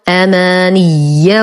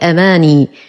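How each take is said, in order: First: The ya sound is doubled and held. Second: The ya sound is short and single. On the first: The speaker calls it right. "تشديد الياء وصلا ووقفا" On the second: The speaker calls it wrong. "فلا نقول أماني"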